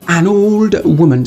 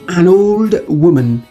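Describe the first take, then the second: First: The n of an runs into old. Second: The same.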